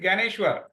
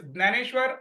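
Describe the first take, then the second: First: The name begins with a 'g' sound. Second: The name begins with a 'dn' sound. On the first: This is the Hindi usage. "in Hindi, it is" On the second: This is the Marathi usage. "In Marathi, it is"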